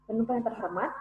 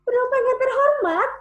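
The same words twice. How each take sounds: First: It is spoken at a fast speed. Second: It is spoken in a high pitch. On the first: "Kalau misalnya pakai speed cepat" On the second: "Dengan tone tinggi misalnya"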